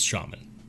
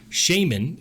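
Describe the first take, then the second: First: It is said with the American pronunciation. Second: It is said with the British pronunciation. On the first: The speaker calls it right. "So, it's shaman" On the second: The speaker calls it wrong. "shaman is how it's pronounced in the U K"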